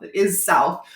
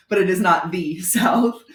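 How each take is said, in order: First: "is" punched in "It is South"; stress on IS. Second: "the" stressed as "thee" before "South". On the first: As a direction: concede it, leaning firmly on "is". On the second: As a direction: set "the" apart with emphasis, laughing lightly. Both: Real, not acted. Contrasts south with the South.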